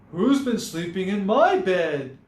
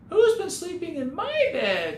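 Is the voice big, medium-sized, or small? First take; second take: medium-sized; small. First: It is said in a medium-sized voice. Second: It is said in a tiny, small voice. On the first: "she asked in her medium-sized voice" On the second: "he cried in his wee little voice"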